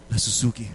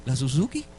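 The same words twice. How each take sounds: First: "la Suzuki" low and settled, as a statement; firm confirmation. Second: "La Suzuki" as a hesitant question, rising at the end; doubting question. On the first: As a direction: confirm "la Suzuki" calmly, without any lift. El Señor responde que sí. ("la Suzuki" como afirmación firme, en tono bajo) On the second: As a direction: question "La Suzuki" with a lift on the last syllable. Pregunta incrédulo a Dios. ("La Suzuki" como pregunta dudosa, con final ascendente) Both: Retold or imitated.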